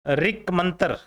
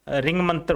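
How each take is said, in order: First: The first word ends in a k sound. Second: The first word ends in an ng sound. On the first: The two words stand separately. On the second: The two words are joined by sandhi.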